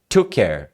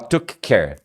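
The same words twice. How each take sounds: First: The k of took merges into care. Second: The k of took is said separately. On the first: The speaker calls it right. "você tira o K e fala praticamente, né? Você fala assim" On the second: The speaker calls it wrong. "Você não fala took care"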